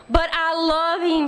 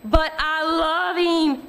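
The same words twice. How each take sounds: First: Slow, tearful plea, pitched up; crying plea. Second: Very slow, drawn-out tearful wail. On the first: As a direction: plead through tears, drawn out. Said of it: "Sheila was crying". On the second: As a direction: stretch it out like a sob. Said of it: "Sheila wailed". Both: A narrator's reading.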